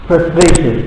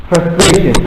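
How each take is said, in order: Both takes have the same delivery.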